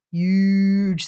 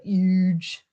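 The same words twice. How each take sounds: First: Said in the usual way. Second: A light hint of Trump saying huge; barely voiced Trump, stretching huge; Donald Trump. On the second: Streamer mimics how Trump says huge, lightly. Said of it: "Donald Trump would say it".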